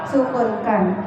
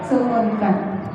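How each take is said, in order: The two takes are said the same way.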